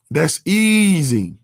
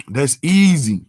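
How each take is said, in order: First: "That's easy" stretched out slowly; slow, savoring the point; slow, drawn-out emphasis. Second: Said in the usual way. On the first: Real, not acted. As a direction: let "easy" hang and draw it out.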